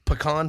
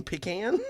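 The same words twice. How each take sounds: First: PECAN said "puh-KAHN"; pecan with a long "ah" ending; Alabama pronunciation. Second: PECAN said "PEE-can?" with a rise; pecan with "pee" first, lifting at the end; other pronunciation, questioned. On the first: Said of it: "it's still pecan". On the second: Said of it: "You mean pecan". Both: Retold or imitated.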